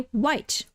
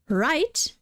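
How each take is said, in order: First: It begins with a w sound. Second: It begins with an r sound. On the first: "they'll basically turn the R into a W" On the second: "instead of right"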